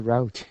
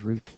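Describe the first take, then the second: First: It is said with an American pronunciation. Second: It is said with a non-American pronunciation. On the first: "The Americans say route" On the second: "they would laugh at me when I said route"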